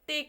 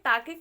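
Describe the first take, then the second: First: It is said as one syllable, tayk. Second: It is said as two syllables, taa-ke. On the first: The speaker calls it right. "टेक हमारा सही है" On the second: The speaker calls it wrong. "टाके गलत होगा"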